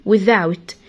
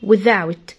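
No difference in how they are said.

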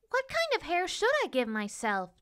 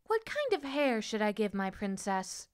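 First: High little paper-doll voice; wondering princess. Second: A hint of a musing child, hushed; wondering little girl. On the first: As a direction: muse aloud in a small, high voice. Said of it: "the princess wondered". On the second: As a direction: softly wonder aloud. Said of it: "the little girl wondered". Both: A narrator's reading.

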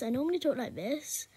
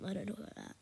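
First: Lightly put-on "normal" voice; a hint of a put-on voice; pretend normal voice. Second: Said in the usual way. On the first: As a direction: playfully pass this off as usual. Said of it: "No, I don't. I don't talk like that". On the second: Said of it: "No, I don't".

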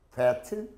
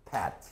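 First: Fat with a true English F; labiodental F. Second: Fat said as pat, low and soft; bilabial P. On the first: Teacher contrasting fat and pat, fat with an F. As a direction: start fat with teeth on lip. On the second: Teacher showing the wrong sound, fat as pat. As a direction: pop fat with both lips, like pat. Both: Shown as a demonstration. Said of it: "이걸 양순으로 말해서".

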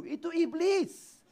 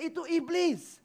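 First: "Itu iblis" dragged out slow, high, heavy on "iblis"; drawn-out stress. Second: Said in the usual way. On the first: Shown as a demonstration. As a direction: stretch "iblis" slowly like a warning. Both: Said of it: "Itu manusiakah itu?".

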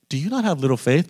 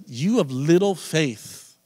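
First: Calm questioning, rising at the end. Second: Slow, drawn-out mock reproach, pitched higher; sarcastic telling-off. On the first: Retold or imitated. Preacher imitating Jesus asking the disciples, calm. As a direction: ask it as a mild question. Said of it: "it sounds kind of calm". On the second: Preacher imitating Jesus telling off the disciples, sarcastic. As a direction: stretch it out as a sarcastic rebuke. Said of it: "more of a sarcastic".

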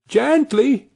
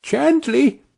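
First: High soothing call repeated. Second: High, soothing call to the horse; little boy calming a horse. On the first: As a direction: keep calming the horse, a tiny boy's voice. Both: A narrator's reading. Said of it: "Tom was calling out".

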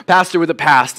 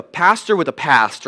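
First: "past" stressed as if in bold; capital bold letters. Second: Said in the usual way. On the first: Shown as a demonstration. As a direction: lean firmly on "pastor" and "past". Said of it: "It's in capital bold letters". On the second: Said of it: "emphasis on the pasts".

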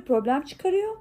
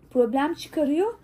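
First: Said in the usual way. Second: "problem çıkarıyor", her heceye basarak ağır ağır; alaycı vurguyla "problem çıkarıyor" diye uzatın; "problem çıkarıyor" yavaş, vurgulu tekrar. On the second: Retold or imitated. Repeated slowly for emphasis. ("problem çıkarıyor" sözünü yavaşça, üstüne basa basa tekrarla)

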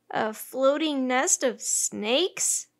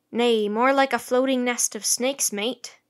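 First: Slow, wondering question; drawn-out question, rising at the end; incredulous question. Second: Loud sailor's warning with a shudder; emphatic, shuddering statement. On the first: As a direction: echo it slowly in disbelief. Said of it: "Annie asked". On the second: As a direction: warn your mate of something horrid. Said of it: "said Tommy with a shudder". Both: A narrator's reading.

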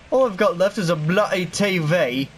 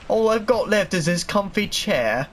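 First: A light mock British accent on "bloody T V". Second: Said in the usual way. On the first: Gamer jokingly goes British over losing his stuff, light British accent. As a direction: toss off a hint of British, "bloody" said the British way. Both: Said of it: "I'm certainly British all of a sudden".

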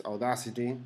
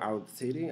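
First: Said in the usual way. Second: Audacity said another way, unsure; alternative pronunciation. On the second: Shown as a demonstration. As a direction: try a second, tentative pronunciation of Audacity. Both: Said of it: "don't know how to pronounce".

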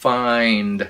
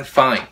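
First: "Find" with a clear final d, said loud; full word. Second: "fine" ends on n, no d; the mistake that turns it into "fine"; no final d. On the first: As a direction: say all of "Find" to the d. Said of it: "Các bạn đọc nguyên chữ". (đọc nguyên chữ "Find") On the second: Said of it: "Khi bạn nói fine". (đọc thiếu d thành "fine") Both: Shown as a demonstration.

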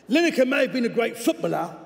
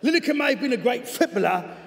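First: Overcooked cockney on "footballer"; overdone cockney. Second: Higher-pitched cockney with a clearer "footballer"; cockney, second attempt. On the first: Acted. Coach's letter judging the presenter as a player, in overdone cockney. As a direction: lay the cockney on too thick, higher. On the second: Coach's letter judging the presenter as a player, in corrected cockney. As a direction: retake the line in measured cockney. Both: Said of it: "I may have overcockneyed that".

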